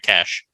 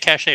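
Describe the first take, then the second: First: The word sounds like 'cash'. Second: The word sounds like 'sachet'.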